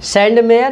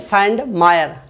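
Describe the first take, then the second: First: The middle syllable sounds like 'may'. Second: The middle syllable sounds like 'my'. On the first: "सैंडमेयर की जगह सैंडमायर भी मिल सकता है" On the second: "कुछ लोग सैंडमायर बोलते हैं इसको"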